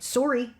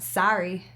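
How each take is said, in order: First: It is said in a stereotyped Canadian accent. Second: It is said in an American accent.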